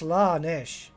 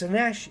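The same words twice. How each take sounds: First: The A vowel is long and drawn out. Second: The A vowel is short and clipped. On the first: The speaker calls it right. "You've got to like push out the A's" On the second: The speaker calls it wrong. "is wrong"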